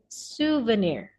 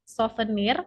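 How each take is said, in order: First: The word is said with an English pronunciation. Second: The word is said with an Indonesian pronunciation. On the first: "but in English we say it souvenir" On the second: "In Indonesia, sometimes we we say it souvenir"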